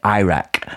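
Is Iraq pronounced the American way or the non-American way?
American. It is pronounced the American way. The speaker calls it wrong. "Americans say Iraq"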